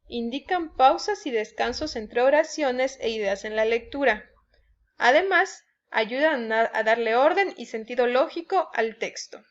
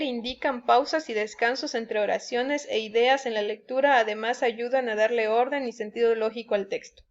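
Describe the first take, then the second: First: It is read with pauses between the ideas. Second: It is read in one breath without pauses.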